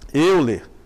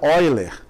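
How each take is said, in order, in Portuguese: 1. O nome é lido como a grafia em português sugere. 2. O nome é dito do jeito suíço-alemão. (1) "se fosse em português, você iria ler Euler" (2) "é um nome suíço e a gente pronuncia Euler"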